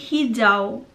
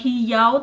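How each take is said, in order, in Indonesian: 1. Konsonan tengahnya adalah bunyi j. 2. Konsonan tengahnya adalah bunyi y. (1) "tapi hijau normal" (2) "itu tuh bukan uh, hijau"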